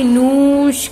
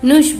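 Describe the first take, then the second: First: The vowel is long and stressed. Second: The vowel is short and said quickly. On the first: The speaker calls it wrong. "अक्षर पर जोर दिया कि हम लोगों ने नूश करके बोला क्या" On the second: The speaker calls it right. "नहीं नुश बोला"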